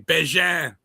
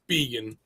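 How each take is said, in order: First: The name is said with a Canadian French sound. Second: The name is said without a Canadian French sound. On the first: This is how people in a Canadian region say it. "If we were in Saint George, Canada, they'd say Bégin" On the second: This is how the family itself says it. "but it's vegan"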